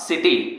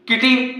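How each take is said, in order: First: The word begins with an s sound. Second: The word begins with a k sound. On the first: The speaker calls it right. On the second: The speaker calls it wrong.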